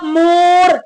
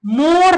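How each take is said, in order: First: मोर with a long, held o; wrongly drawn-out vowel. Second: Said in the usual way. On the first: Shown as a demonstration. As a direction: stretch the o in मोर as a mistake. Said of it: "गलत हो जाएगा". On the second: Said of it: "बिल्कुल सादा लफ्ज में बोल देना है".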